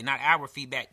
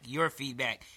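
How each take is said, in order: First: "our" weighted, set against "your"; stress on our. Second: "your" given the weight, softer close; stress on your. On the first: Podcast host correcting himself, stress on our. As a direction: lean on "our" as the wrong word. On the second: Host correcting himself to listeners, stress on your. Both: Shown as a demonstration. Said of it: "I should say".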